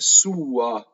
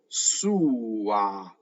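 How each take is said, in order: First: The final vowel is a weak 'uh'. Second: The final vowel is an open 'ah'. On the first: The speaker calls it wrong. "There's no uh in Italian" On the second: The speaker calls it right. "Ah, ah, ah at the end"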